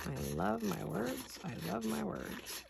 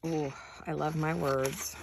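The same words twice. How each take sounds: First: Slow, softer, savoring "I love my words"; dreamy softer repeat. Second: Said in the usual way. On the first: Real, not acted. Crafter murmuring to herself over favorite word cutouts, slow and soft. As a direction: croon it to yourself, slowly and softly.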